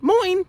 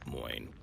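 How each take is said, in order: First: It is said bubbly, bright and happy. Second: It is said flat, monotone and laconic. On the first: The speaker calls it wrong. "bubbly and happy like an American" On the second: The speaker calls it right. "very monotone, very laconic"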